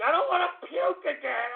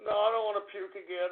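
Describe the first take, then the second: First: Whiny plea, pitched much higher; hammed-up queasy whine; mock whimper. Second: Said in the usual way. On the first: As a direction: whimper it like a sick kid. Same plea said twice.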